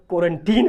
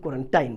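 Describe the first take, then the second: First: Put-on "क्वारंटीन" ending in a long "teen"; alternative pronunciation. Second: "क्वारंटाइन" ending in "tine", rhyming with "line"; alternative pronunciation. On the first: Teacher compares usages for students, "क्वारंटीन" ending like "teen". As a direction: stretch the ee in the last syllable of "क्वारंटीन". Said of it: "जिस तरह कुछ लोग क्वारंटीन". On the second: Teacher compares usages for students, "क्वारंटाइन" ending like "tine". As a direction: put an eye sound in the last syllable of "क्वारंटाइन". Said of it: "कोई लोग क्वारंटाइन बोलता है". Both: Shown as a demonstration.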